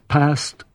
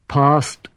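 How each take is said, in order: First: The A sound is said the regional way. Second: The A sound is said the standard English way.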